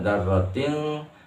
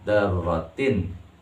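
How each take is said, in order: First: The n sound is hidden and nasalized. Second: The n sound is pronounced clearly. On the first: The speaker calls it wrong. "jangan dibaca" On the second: The speaker calls it right. "jelaskan bacanya"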